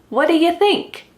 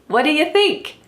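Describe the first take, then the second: The two takes are said the same way.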